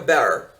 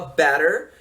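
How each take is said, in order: First: Scottish accent, with the r but no t. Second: It is said in an American accent. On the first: "o escocês fala o som do R, mas não fala o T também" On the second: "o americano fala better"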